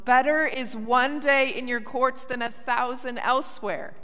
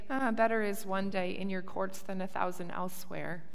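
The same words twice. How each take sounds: First: It is shouted loudly with great energy. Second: It is spoken at a calm, ordinary volume. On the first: It is proclaimed with overwhelming joy. "they shouted it at the top of their lungs" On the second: It is merely stated. "they didn't just say"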